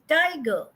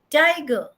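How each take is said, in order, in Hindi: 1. तनाव पहले अक्षर पर है। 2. तनाव पहले अक्षर पर है।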